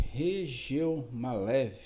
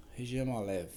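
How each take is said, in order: First: Regeomalev said slowly, syllable by syllable; slow, deliberate Regeomalev; careful name. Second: Said in the usual way. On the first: Shown as a demonstration. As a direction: spell out Regeomalev slowly and clearly.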